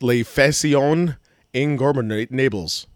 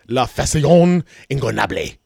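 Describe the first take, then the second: First: It is said with a plain American accent. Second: It is said with a Spanish-style accent.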